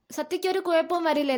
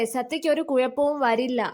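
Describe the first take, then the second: First: "വരില്ലേ" as a higher-pitched plea for assurance; anxious question. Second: "വരില്ല" said as a settled statement; firm reassurance. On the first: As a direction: ask "വരില്ലേ" pleadingly, pitched up. Anxious question echoing the reassurance. (ഉയർന്ന സ്വരത്തിൽ ആശങ്കയോടെ "വരില്ലേ?") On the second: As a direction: state "സത്യയ്ക്ക് ഒരു കുഴപ്പവും വരില്ല" to reassure. Reassuring answer in acted dialogue. (ഉറപ്പിച്ച് ആശ്വസിപ്പിക്കുന്ന "വരില്ല") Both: Acted.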